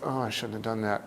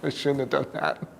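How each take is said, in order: First: It is said in a miserable, regretful tone. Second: It is said laughingly, in an amused tone.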